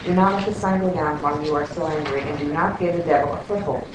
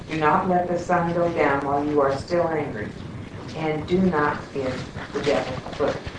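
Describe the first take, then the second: First: It is read at a normal, faster pace. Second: It is read at a slower pace.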